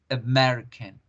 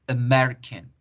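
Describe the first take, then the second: The two takes are said the same way.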